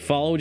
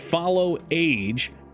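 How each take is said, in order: First: It is said as one blended word. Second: It is said as follow plus age. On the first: The speaker calls it wrong. "followage is more fun" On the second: The speaker calls it right. "It's follow age"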